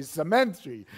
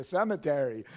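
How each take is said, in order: First: "cemetery" as se-MEN-tree, loud and amused, Filipino style; Filipino-accented "cemetery", MEN punched. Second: "cemetery" in four syllables, stress on CEM; standard pronunciation. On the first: Retold or imitated. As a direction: imitate Filipino second-syllable stress on "cemetery". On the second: Shown as a demonstration. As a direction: correct to CEM-e-ter-y, first syllable stressed. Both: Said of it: "but they say cemetery".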